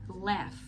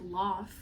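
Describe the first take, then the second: First: It is said in a standard American accent. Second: It is said in a non-American accent. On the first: "eu corrijo para laugh. Essa daqui é a pronúncia que a gente diz" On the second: "essa forma que ela falou existir, esse laugh, laugh, existe, é falado, só que não nesse inglês padrão americano"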